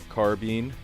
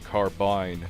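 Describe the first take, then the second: First: The word is given a French-style pronunciation. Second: The word is given a British-style pronunciation. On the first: "the French pronunciation of carbine" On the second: "the British carbine"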